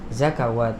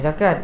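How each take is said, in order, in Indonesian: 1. Bunyi w disisipkan sebelum vokal terakhir. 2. Kata itu diucapkan tanpa bunyi w. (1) "Orang yang baru belajar ngaji dia akan baca zakawat" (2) "Kalau orang biasa ngaji dia akan baca zakat"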